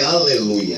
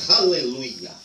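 First: It ends in a plain Portuguese 'ia' sound. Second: It ends in a clearly marked 'Yah' sound. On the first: The speaker calls it wrong. "Porque não é aleluia" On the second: The speaker calls it right. "é aleluia. Louvai Yah"

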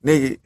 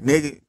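Both takes have the same delivery.

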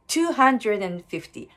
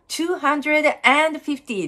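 First: The word 'and' is pronounced lightly and reduced. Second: The word 'and' is pronounced fully and strongly. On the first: The speaker calls it right. "and は軽く発音しましょう" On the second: The speaker calls it wrong. "ではなくて"

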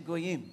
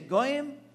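First: The stress is on the second syllable. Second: The stress is on the first syllable. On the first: "or the second part" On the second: "you can put the accent on the first part of the word"

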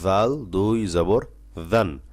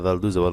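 First: The phrase is recited slowly and carefully. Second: The phrase is recited quickly and hurriedly. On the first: The speaker calls it right. "এজন্য আস্তে আস্তে" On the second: The speaker calls it wrong. "এভাবে তারবার থরবার করে পড়বেন না"

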